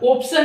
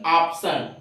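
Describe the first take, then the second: First: The first vowel is an 'o' sound. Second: The first vowel is an 'aa' sound. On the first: The speaker calls it wrong. "ऑप्शन नहीं बोलेंगे" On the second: The speaker calls it right. "बल्कि ऑप्शन, आ की sound आती है"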